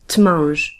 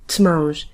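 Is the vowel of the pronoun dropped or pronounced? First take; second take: dropped; dropped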